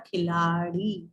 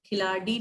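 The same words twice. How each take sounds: First: "खिलाड़ी" low, with flapped R; "khilaaree", flap instead of D in "खिलाड़ी"; correct consonant. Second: "खिलाड़ी" with hard D, "khilaadee"; plain D sound in "खिलाड़ी"; wrong consonant. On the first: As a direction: flick the tongue in "खिलाड़ी". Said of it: "ड के नीचे बिंदी लगानी पड़ेगी". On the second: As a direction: stop the tongue in "खिलाड़ी". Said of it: "खिलाड़ी नहीं होता है". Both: Shown as a demonstration.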